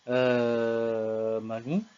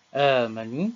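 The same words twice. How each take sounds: First: The vowel after the hamza is held moderately. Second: The vowel after the hamza is held briefly.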